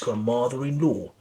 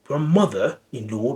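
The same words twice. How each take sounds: First: An R sound links 'grandmother' to 'in'. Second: No R sound is heard after 'grandmother'.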